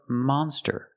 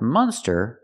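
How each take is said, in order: First: The first vowel is an open 'ah' sound. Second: The first vowel is a closed 'uh' sound. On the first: The speaker calls it right. "but monster ... Use the open sound. Ah" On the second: The speaker calls it wrong. "Not monster ... not the closed sound. Uh"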